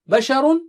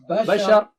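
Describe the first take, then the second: First: The word ends with a vowel plus n. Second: The word ends on a bare consonant. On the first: The reading continues past this word. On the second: The reader stops on this word.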